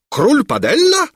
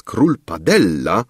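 First: Very high, loud incredulous question; astonished exclamation. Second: Said in the usual way. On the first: A narrator's reading. King echoing the minister's words, astonished. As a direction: shoot the name back in disbelief. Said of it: "wykrzyknął król".

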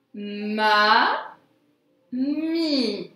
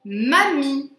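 First: "Ma. Mi." as two long, held syllables with a gap. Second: Said in the usual way. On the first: Shown as a demonstration. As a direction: draw out "Ma", pause, then hold "Mi". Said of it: "sur la deuxième syllabe". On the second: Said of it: "Mets en pause la vidéo".

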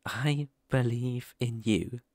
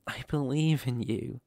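First: Slow, leaning hard on the word "I"; stress on I. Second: Said in the usual way. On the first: Acted. Reassuring the puppy, with "I" stressed slowly. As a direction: say "I" as a firm personal promise. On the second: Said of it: "Yes, I believe in you".

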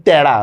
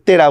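First: তেড়া said 'taera', with a wide ae; correct open ae. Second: তেড়া said 'tera', with a narrow e; wrong closed e. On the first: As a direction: open the first vowel of তেড়া. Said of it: "আমরা অনেক সময়". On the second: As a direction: keep the first vowel of তেড়া closed. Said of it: "তেড়া বলি না". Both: Shown as a demonstration.

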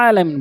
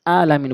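First: আলামিন starting with ayn squeezed from mid-throat; আলামিন with a full Arabic ayn; correct ayn alamin. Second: আলামিন with a plain open a, no throat squeeze; আলামিন with the ayn dropped; incorrect plain alamin. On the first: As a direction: press the throat on the first sound of আলামিন. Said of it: "আলামিন বলতে হবে". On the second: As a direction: start আলামিন on a simple vowel, without ayn. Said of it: "আলামিন বলা যাবে না". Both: Shown as a demonstration.

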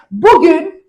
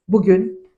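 First: Bugün called out high and loud; bugün rising, high and punchy; announcing today. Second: Said in the usual way. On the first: Shown as a demonstration. Teacher opening the lesson, calling bugün out loud. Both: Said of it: "repeated opener".

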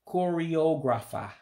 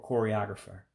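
First: Choreographer with an Igbo accent, slow and higher. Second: Said in the usual way. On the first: Shown as a demonstration. Teacher to learners, Igbo-accented choreographer. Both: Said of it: "the English word with an accent to it".

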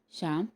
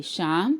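First: Soft, loving call of the name; a mother calling her sick son tenderly. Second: A mother calling her son awake. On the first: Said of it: "ती वात्सल्याने म्हणाली". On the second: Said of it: "तिने हाक मारली". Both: A narrator's reading.

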